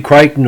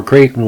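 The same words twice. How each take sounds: First: Crichton, first syllable rhyming with "cry"; Crichton said CRY-ton. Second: Creighton, first syllable rhyming with "day"; Creighton said CRAY-ton. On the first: Podcaster offering one way to say the player's surname, Crichton as CRY-ton. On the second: Podcaster offering the other way to say the player's surname, Creighton as CRAY-ton. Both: Shown as a demonstration. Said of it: "whatever way you pronounce it".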